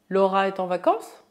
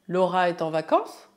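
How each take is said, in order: The two takes are said the same way.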